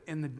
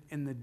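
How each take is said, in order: The two takes are said the same way.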